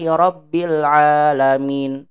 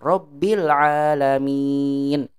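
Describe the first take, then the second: First: The vowel before the final n is cut short. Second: The vowel before the final n is held long. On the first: The speaker calls it wrong. "Nggak boleh dibaca ... Itu salah. Karena dia tidak menerapkan pembacaan panjang" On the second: The speaker calls it right. "maka wajib kita panjangkan"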